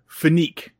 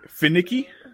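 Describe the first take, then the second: First: The word ends in a single 'neek' syllable. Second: The word ends in two syllables, 'nick-ee'. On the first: The speaker calls it wrong. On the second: The speaker calls it right.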